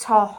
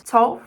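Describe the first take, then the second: First: Put-on older vowel in "to", before the vowel shift; "to" said with its former vowel; old pronunciation. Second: Said in the usual way. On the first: Shown as a demonstration. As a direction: demonstrate how "to" was once pronounced. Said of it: "To was once to". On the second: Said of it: "was once".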